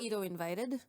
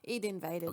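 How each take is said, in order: First: ID is said the Japanese way, like 'Edo'. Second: ID is said the English way, like 'id'.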